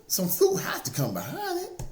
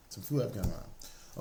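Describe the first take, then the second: First: Pitched high and loud, preaching hard; rising fervour. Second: Softer repeat, dropping back down; quiet echo. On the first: Preacher drives his point home to listeners, high fervent call. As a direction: lift it up like a sermon peak. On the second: Preacher repeats the promise to listeners, softly. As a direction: let it settle gently after the peak. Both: Real, not acted.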